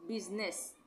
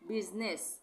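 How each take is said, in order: The two takes are said the same way.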